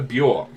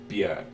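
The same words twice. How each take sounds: First: The name is said with an English pronunciation. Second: The name is said so it rhymes with jerk. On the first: This is what English speakers call her. The speaker calls it wrong. "that's what you call her in your stupid language" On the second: This is how she says her own name. The speaker calls it right. "she said it rhymes with jerk"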